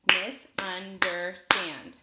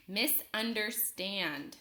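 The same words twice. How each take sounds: First: "Misunderstand" loud and slow in four beats, Mis, un, der, stand; split into syllables. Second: Said in the usual way. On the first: Shown as a demonstration. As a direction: punch each syllable of "Misunderstand" separately. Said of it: "I'll clap it out". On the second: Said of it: "Listen as I say a word".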